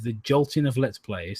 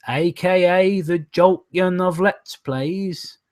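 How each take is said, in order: First: Said in the usual way. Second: Slow, high, drawn-out mock announcement; mock grand announcer. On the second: Reading a viewer's joke back as a mock grand title.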